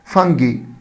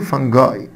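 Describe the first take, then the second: First: The word ends with an 'ee' sound. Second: The word ends with an 'eye' sound.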